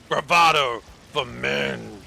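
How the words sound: It is said in a gruff, deep voice.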